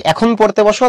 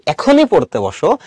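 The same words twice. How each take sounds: First: Said in the usual way. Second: Slow, insistent stress on এখনই; pressing emphasis. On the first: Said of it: "অত বেশি জোরাজুরি নাই". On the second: Shown as a demonstration. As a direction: lean on এখনই as a pressing order. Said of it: "আমি জোর দিচ্ছি".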